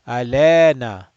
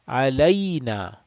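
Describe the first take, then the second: First: The middle vowel is a plain 'e' sound. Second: The middle vowel glides as an 'ay' sound. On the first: The speaker calls it wrong. "A lot of people will read this like this. ... That's wrong" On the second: The speaker calls it right. "a layna, not lena"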